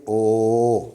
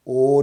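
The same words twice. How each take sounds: First: ओ said slow and rounded like English o; correct English o. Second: ओ said wide open, mouth open; wrong open o. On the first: Teacher models the English ओ for students, slowly. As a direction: show the right ओ. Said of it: "इसको हम ऐसे पढ़ेंगे ओ". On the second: Teacher demos the wrong open ओ, a bit louder. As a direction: show the open ओ we avoid. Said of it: "खुले अंदाज में नहीं पढ़ेंगे". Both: Shown as a demonstration.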